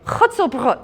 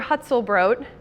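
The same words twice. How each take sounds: First: It is said with a German accent. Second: It is said with an American accent. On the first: Bakers could understand it. The speaker calls it right. "I had to say it" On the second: Bakers could not understand it. The speaker calls it wrong. "with an American accent"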